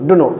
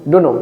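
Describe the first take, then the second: No difference in how they are said.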